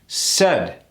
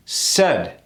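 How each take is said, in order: First: The vowel is a short, tight eh sound. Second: The same.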